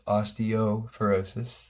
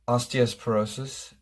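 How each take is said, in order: First: No extra s sound comes before the p. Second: An extra s sound comes before the p. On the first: The speaker calls it right. "of course we know it's osteoporosis" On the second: The speaker calls it wrong. "She says osteosporosis"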